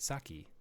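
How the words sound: The word is said with an American pronunciation.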